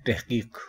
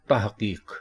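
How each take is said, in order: First: तहकीक as tehkeek, e after t; common pronunciation. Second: तहकीक as tahqeeq, a after t; correct pronunciation. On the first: Teacher showing the common तहकीक, tehkeek. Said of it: "हम इसको बोलते हैं". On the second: Teacher giving the correct तहकीक, tahqeeq. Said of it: "दुरुस्त लफ्ज़ है". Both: Shown as a demonstration.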